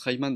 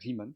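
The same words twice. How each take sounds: First: The name is said with a mispronunciation. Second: The name is said with its original pronunciation. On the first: The speaker calls it wrong. "il prononce Riemann dans le film, j'avais envie de les claquer" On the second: The speaker calls it right. "c'est Riemann"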